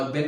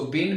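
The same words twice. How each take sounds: First: "बिन" with a short i; short-vowel pronunciation. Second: "बीन" with a long ee; long-vowel pronunciation. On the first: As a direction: say "बिन" like English "bin". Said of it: "और बिन भी बोलते हैं". ("बिन" छोटी इ के साथ) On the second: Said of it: "जिसको बीन भी बोलते हैं". ("बीन" लंबी ई के साथ) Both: Shown as a demonstration.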